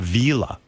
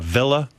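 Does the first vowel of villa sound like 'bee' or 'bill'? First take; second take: bee; bill. First: The first vowel is long, as in 'bee'. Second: The first vowel is short, as in 'bill'. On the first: "he calls it a villa" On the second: "If you know the word uh"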